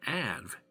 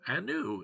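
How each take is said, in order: First: The word ends with a v sound. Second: The word ends with an oo vowel. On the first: The speaker calls it wrong. "I've been saying Anv" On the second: The speaker calls it right. "the V is actually a U"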